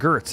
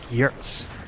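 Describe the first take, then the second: First: The name begins with a hard G sound. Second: The name begins with a Y sound. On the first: The speaker calls it wrong. "it's not even Gertz" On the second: The speaker calls it right. "It's it's it's pronounced like Yertz or something"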